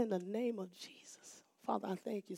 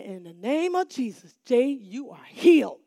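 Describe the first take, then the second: First: Soft prayer. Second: Bold proclamation. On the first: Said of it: "something like that". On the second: Proclaiming healing over the boy. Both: Retold or imitated.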